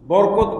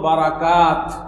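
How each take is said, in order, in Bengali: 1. এটি বাংলা নিয়মে বলা হয়, borkot। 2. এটি আরবি নিয়মে বলা হয়, barakat। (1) "বাংলায় কিভাবে বলি? বরকত বলি" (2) "আর আরবি উচ্চারণ হবে বারাকা, আর এর বহু বচন হলো বারাকাত"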